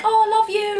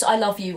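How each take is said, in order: First: Very high, louder, sing-out sign-off; imitated gushing affection. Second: Said in the usual way. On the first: Signing off a conversation with friends, mock-gushing and affectionate. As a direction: gush it high, like a fond goodbye.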